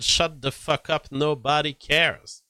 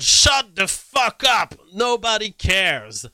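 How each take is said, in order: First: Said in the usual way. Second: Loud, high, slow shout, much higher pitch; a hammed-up yell at critics; mock shout. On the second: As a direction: bellow it like an angry poster. Reading a tweet, acting it out.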